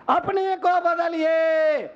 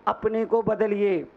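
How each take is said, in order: First: High, drawn-out preacher's exhortation; rousing appeal. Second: Said in the usual way. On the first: Real, not acted. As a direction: stretch it out high, urging the crowd. Preacher repeats appeal for force. (ऊँचे सुर में खींचकर जोशीली appeal)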